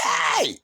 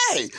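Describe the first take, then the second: First: Long, high squealed yell; voice gone up. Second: Screaming out. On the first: Retelling his last yell at Alan, voice gone way up. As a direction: stretch "hey" into a comic high scream. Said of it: "My voice went up". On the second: Retelling his first yell at Alan, screaming out. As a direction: holler "hey" in comic alarm. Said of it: "I'm screaming out". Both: Retold or imitated.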